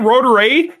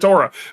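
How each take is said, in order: First: The name ends with a separate letter A. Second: The name runs together as one blended word. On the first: The speaker calls it right. "if you don't say Rotor A, they get pissed" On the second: The speaker calls it wrong. "you call it Rotora"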